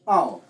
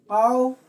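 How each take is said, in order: First: Au with the pitch dropping low; au, sliding down to a low finish; falling tone on au. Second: Au held up high, pitch rising; Au, lifting upward. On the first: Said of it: "falling tone". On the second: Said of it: "Sina rising tone". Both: Shown as a demonstration.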